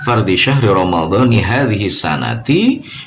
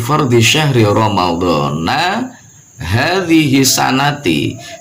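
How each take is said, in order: First: Both Ramadan and sana end in an i vowel. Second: Ramadan ends in a, sana ends in i. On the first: The speaker calls it right. "Boleh kita membacanya" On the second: The speaker calls it wrong. "kurang tepat"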